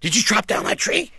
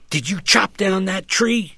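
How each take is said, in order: First: The question is asked in a startled, surprised way. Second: The question is asked in a calm, unsurprised way. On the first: "Or I could be startled and say" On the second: "I might say"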